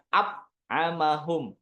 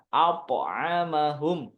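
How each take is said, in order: First: The consonant is cut short without a bounce. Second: The consonant is released with a bounce. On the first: The speaker calls it wrong. "Jangan ap amahum" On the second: The speaker calls it right. "tapi dipantulkan"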